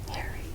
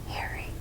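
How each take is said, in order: No difference in how they are said.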